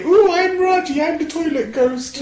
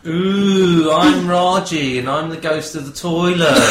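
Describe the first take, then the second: First: Ghost voice. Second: Lightly voiced ghost, slow moan; a hint of a spooky ghost. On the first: Pretend. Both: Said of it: "do your ghost impression now".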